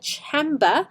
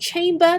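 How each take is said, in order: First: It is pronounced the way many Hong Kong learners do. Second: It is pronounced the way native speakers do. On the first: The speaker calls it wrong. "Many of you say chamber" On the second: The speaker calls it right. "from what I know, they say chamber"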